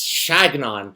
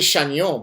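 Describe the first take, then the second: First: The name is said with an English pronunciation. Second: The name is said with a French pronunciation. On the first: "He likes he likes Chagnon" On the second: "pronounce it the French way"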